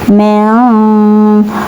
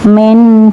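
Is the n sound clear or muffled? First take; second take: muffled; clear. First: The n is muffled and nasalized, not clearly pronounced. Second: The n is pronounced clearly and fully. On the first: The speaker calls it right. "cara membacanya yaitu samar" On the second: The speaker calls it wrong. "bukan min"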